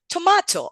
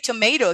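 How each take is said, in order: First: The word is said in a British way. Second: The word is said in an American way. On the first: "he says tomato" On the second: "he doesn't say tomato"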